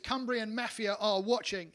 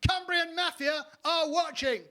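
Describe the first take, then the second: First: It is said at a normal, quiet volume. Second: It is shouted loudly.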